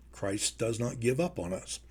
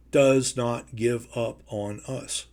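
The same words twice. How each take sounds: First: Much softer, almost under the breath; hushed repeat. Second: Slow, every word weighted; slow emphatic. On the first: Preacher echoing himself to the congregation, hushed. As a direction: drop to a hush to let it sink in. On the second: Preacher to congregation, slow and emphatic. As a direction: lean on each word, deliberately. Preacher repeats key line. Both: Acted.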